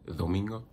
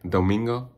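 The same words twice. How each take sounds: First: The d is soft, tongue behind the teeth. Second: The d is a hard, strong English-style d. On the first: The speaker calls it right. "I say like domingo" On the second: The speaker calls it wrong. "I don't say"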